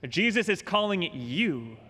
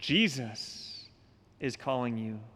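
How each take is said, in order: First: The stress falls on the word you. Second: The stress falls on the word Jesus. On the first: The call is personal to the listener. "change the emphasis one more time on that statement" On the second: The one calling is compassionate. "Jesus, whose sacred heart beats with compassion for us sinners"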